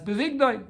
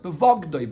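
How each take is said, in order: First: The vowel after the v is 'i'. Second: The vowel after the v is 'o'. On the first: It refers to his marrying her off. "it's pronounced as if it's written with a yud" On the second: He dealt treacherously with her by selling her. "if you read it with a comma"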